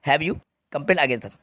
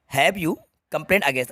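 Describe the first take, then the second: First: Completed version read out slowly; slow reading, completed sentence. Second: Slow incomplete version read out; slow reading, incomplete sentence. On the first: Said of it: "मैं इसको पूरा कर देता हूँ". (पूरा वाक्य धीरे पढ़ना) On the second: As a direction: read the incomplete question slowly. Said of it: "ठीक है". (अधूरा वाक्य धीरे पढ़ना) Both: Shown as a demonstration.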